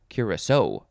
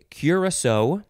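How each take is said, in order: First: The last syllable carries the strongest stress. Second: The last syllable carries only light stress.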